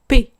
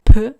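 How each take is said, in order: First: The consonant is followed by a vowel. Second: Only the bare consonant sound is said. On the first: The speaker calls it right. "on dit P" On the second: The speaker calls it wrong. "on dit pas juste P"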